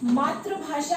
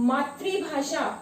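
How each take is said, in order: First: The second syllable lacks a 'ri' sound. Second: The second syllable has a 'ri' sound. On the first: The speaker calls it wrong. "बहुत सारे बच्चे इसे मातृभाषा कहते हैं" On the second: The speaker calls it right. "शब्द है हमारा मातृभाषा"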